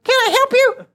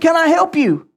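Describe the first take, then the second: First: It is said in a meek, unthreatening voice. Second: It is said in an intimidating voice.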